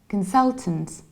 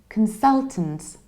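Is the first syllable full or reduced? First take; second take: reduced; reduced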